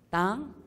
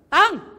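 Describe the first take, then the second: First: It is called out hesitantly, like to a stranger. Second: It is called out familiarly, like to a father.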